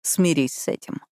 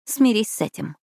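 First: Lightly voiced man echoing her retort; a hint of his voice, mid-pitched and falling; male character's retort. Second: Lightly voiced retort, pitched higher; high-pitched, falling comeback in the heroine's voice. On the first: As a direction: hand the line back in an understated male voice. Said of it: "ответил он". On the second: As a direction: answer back with a high start that falls. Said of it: "ответила я". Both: A narrator's reading.

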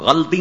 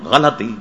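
First: Higher-pitched غلطی in two syllables, "ghal-ti"; wrong pronunciation. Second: غلطی in three syllables, "gha-la-ti"; correct pronunciation. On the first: Cleric rejecting the common form, غلطی as "ghalti". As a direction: drop the vowel after the l in غلطی. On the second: Cleric correcting the mistake, غلطی as "ghalati". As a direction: put a short a after the l in غلطی. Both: Shown as a demonstration. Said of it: "غلطی نہیں ہے".

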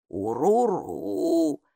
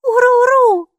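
First: Meaningful grumble. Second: Put-on high, loud child's echo of the creature word; girl repeating. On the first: Acted. Бука, лесное существо, многозначительно ворчит «Уруру» Майке. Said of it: "со значением проворчала она". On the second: Майки, маленькая девочка, громко повторяет «Уруру» за Букой. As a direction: copy the strange word eagerly. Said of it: "повторила Майки".

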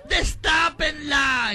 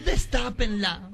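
First: Higher, louder, very slow wailed shout; wailing shout. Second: Slow, tearful plea; slow sobbing plea. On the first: Daughter shrieks for the coffin to be opened, loud slow wail. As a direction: wail it out at full volume. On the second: Daughter tearfully asks them to open the coffin, slow sob. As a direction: beg through sobs. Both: Acted.

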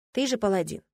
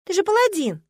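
First: Said in the usual way. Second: "паладин" flung out high and loud; mock-outraged, lean on "паладин"; indignant. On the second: Heroine mock-scolding her paladin fiancé, stress on "паладин". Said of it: "возмутилась я".

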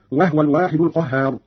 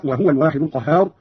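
First: وهو said "wahwa", h without a vowel; silent vowel on ha. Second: Said in the usual way. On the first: Shown as a demonstration. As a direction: close the h in وهو: "wah-wa". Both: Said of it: "قرأ قالون بإسكان الهاء".

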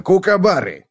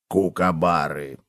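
First: High, hearty confirmation; high emphatic hamster voice; agreeing hamster. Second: Low, slow, soft prompt; supply the word quietly, low and drawn out; low plodding cockroach voice. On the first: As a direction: confirm it brightly, pitched high. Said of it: "согласился хомяк". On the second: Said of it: "подсказал таракан". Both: A narrator's reading.

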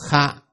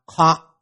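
First: "khạ" with an open a, front of the throat; front-of-throat sound. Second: "khọ" rounded, far back in the throat; back-of-throat sound. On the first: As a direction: say "khạ" as a short, forward syllable. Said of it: "khạ là trước họng". (đọc "khạ", âm trước họng) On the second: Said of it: "và khọ là sau họng". (đọc "khọ", âm sau họng) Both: Shown as a demonstration.

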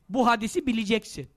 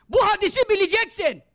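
First: Said in the usual way. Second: High, insistent "Bu hadisi bileceksin"; preacher's forceful order on "Bu hadisi bileceksin"; emphatic command. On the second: Real, not acted. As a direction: drive home "Bu hadisi bileceksin" at raised pitch.

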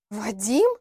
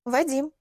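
First: Name echoed as a rising question; startled question. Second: Composed, matter-of-fact statement of the name; calm answer. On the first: Acted. Лилиана echoes the name the girl gave, taken aback. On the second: A narrator's reading. Girl names who sent her to her interrogator, calmly. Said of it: "ответила я спокойно".

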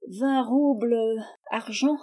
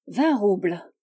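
First: Higher, thin tart voice; slightly sour voice. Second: Cool, level, self-possessed offer; unruffled bargainer naming his figure; imperturbable aplomb. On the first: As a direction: query it in a sharpish, vinegary little voice. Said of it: "dont la voix aigrelette". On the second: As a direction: state the price with unshakeable assurance. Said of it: "avec un aplomb imperturbable". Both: A narrator's reading.

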